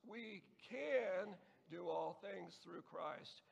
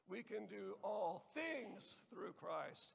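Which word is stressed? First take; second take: can; things. First: The word "can" is stressed. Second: The word "things" is stressed. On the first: "the second word the second time" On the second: "and so on"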